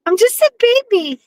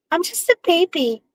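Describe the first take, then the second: First: Put-on much higher, squeaky baby voice; cutesy baby voice. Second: Put-on soft, higher baby voice; cutesy baby voice. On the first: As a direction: squeak it out like a toddler. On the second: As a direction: coo it quietly like a baby. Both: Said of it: "You can't talk in a baby language".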